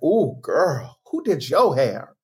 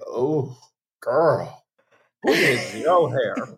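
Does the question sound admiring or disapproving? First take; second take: admiring; disapproving. First: It sounds admiring, like a compliment. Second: It sounds disapproving, like a criticism.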